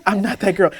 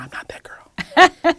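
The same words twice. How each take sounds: First: Said in the usual way. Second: High breathy whisper, drawn out slowly; mock-dramatic whisper; whispered refusal. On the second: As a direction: breathe it out like a secret aside. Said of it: "And I was like".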